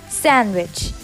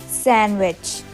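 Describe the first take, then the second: The two takes are said the same way.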